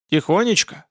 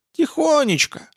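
First: Rising, doubtful repeat in a normal register; questioning echo. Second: High granny voice, falling at the end; meek little old lady, pitched well up; old woman. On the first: Hunter echoes her word, questioning. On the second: Old woman describes living quietly. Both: Acted.

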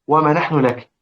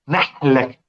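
First: Said in the usual way. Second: نحن لك with nun merged into a doubled l; assimilated nun. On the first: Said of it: "هذا في إدغام". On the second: Shown as a demonstration. Teacher demonstrates idgham in this word, nun merged into lam. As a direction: run نحن لك together as "nahl-lak". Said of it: "قال لك هذا في إدغام".

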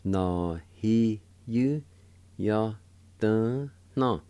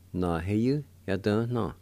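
First: Whole word in slow, separated syllables; syllable-by-syllable demo. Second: Said in the usual way. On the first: Shown as a demonstration. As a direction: give every syllable its own beat. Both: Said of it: "And together".

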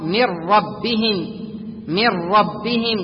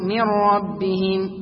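First: من ربهم slowly as mirrabbihim, nun merged into ra without nasal; correct merged rra. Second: من ربهم very slowly with a leftover hum of the nun; slow mistaken reading keeping some غنة; wrong with nasal trace. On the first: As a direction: stretch it slowly, the ra doubled. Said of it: "أو تقول". (من ربهم بإدغام الراء بلا غنة) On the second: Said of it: "ولا تقول". (قراءة خاطئة لـ من ربهم مع بقية غنة) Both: Shown as a demonstration.

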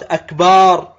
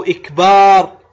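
First: "أكبار" with an a at the start and long "baar"; lengthened ba, fatha. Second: "إكبار" louder, starting on i, with long "baar"; lengthened ba, kasra. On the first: Teacher showing what the stretched word becomes, lengthened ba with fatha. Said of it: "إذا مد الباء من أكبر". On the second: Teacher giving the other faulty form, lengthened ba with kasra. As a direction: begin "إكبار" on i and hold the last syllable. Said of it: "كسر الهمزة". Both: Shown as a demonstration.

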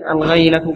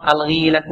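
First: "الغيلة" with an ay glide, al-ghayla; fatha on ghayn. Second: "الغيلة" with a long ee after the ghayn; kasra on ghayn. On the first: Reader contrasting the linguists' other form, fatha on ghayn. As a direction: say "الغيلة" as al-GHAY-la. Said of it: "بالفتح المرة الواحدة". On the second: Reader voicing a hadith term from the commentary, kasra on ghayn. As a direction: say "الغيلة" as al-gheela. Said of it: "هنا بكسر الغين". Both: Shown as a demonstration.

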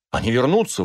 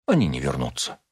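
First: Higher, insistent exclamation; exclaimed. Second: Low, composed contradiction; calm. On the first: Husband insists to Rachel that his patients will return, exclaiming. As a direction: insist with the voice rising. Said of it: "воскликнул я". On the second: Rachel calmly contradicts her husband about his patients. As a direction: answer calmly, dropping the pitch. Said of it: "спокойно сказала Рахель". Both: A narrator's reading.

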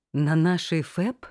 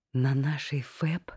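First: Slow, louder disbelieving repeat; double take. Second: Said in the usual way. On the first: A narrator's reading. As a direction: say it again as if you can't believe your ears. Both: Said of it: "переспросила, не веря собственным ушам".

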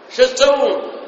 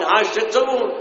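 First: "شو تسوون" shouted higher and louder with a sharp fall; rebuking shout. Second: "شو تسوون" asked high and firm, a first reproach; a pointed question, voice raised a little; raised rebuke. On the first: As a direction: cry out to stop the fight. (صيحة توبيخ عالية) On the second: (عتاب بنبرة مرتفعة قليلا) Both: Retold or imitated. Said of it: "قال".

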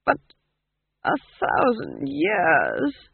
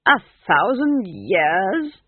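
First: Slow, drawn-out, faltering disbelief; dazed, stretched-out question; weak. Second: Loud, slow, rising disbelief; appalled, drawn-out question; astonished. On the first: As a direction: repeat it as if overwhelmed. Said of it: "Verence repeated weakly". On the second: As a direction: echo it in stunned disbelief. Ghost astonished at the age. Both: A narrator's reading.

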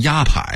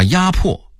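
First: 压迫 misread as yāpǎi; 压迫 ending like 迫击炮's pǎi; workers' mispronunciation. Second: Said in the usual way. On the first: Shown as a demonstration. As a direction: say 迫 in 压迫 as pǎi, not pò. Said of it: "念成压迫". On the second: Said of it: "把压迫念成".

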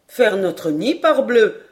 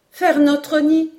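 First: Mildly jaunty, louder at the end; cheerful reply. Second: Put-on high, loud, drawn-out boyish cry; slow, excited exclamation way up high; exclaiming. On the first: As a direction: answer cheerily, punching the final oath. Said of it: "répondit gaiement Paganel". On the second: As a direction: echo it back in high-pitched amazement. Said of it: "s'écria Robert". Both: A narrator's reading.

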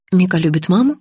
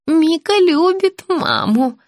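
First: Said in the usual way. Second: Put-on high, drawn-out childlike assurance; confused old woman. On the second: A narrator's reading. Patient assuring her visitor, confused old woman's high voice. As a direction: assure slowly in a high little voice. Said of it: "заверила Наталья".

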